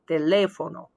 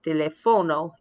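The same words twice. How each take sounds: First: The stress is on the second syllable. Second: The stress is on the third syllable. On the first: The speaker calls it right. "there's a written accent over the second A, or English E" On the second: The speaker calls it wrong. "the accent falls on the second to last syllable"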